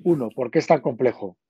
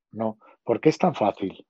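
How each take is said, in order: First: Said in the usual way. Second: "fácil" said as the pointed correction, tan stressed, falling. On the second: Shown as a demonstration. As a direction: reframe it, leaning on "tan fácil". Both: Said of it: "dar la vuelta a tus palabras".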